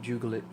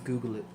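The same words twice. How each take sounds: First: It begins with a soft G sound. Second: It begins with a hard G sound. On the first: The speaker calls it wrong. "you don't Google it" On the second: The speaker calls it right. "You Google it"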